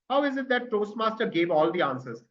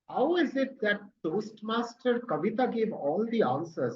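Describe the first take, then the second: First: It is said in an angry, indignant tone. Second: It is said in a jealous, resentful tone. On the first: The speaker is furious about what happened. "That is not jealousy, that is anger" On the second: The speaker envies the attention someone else gets. "Even if you have to show jealousy"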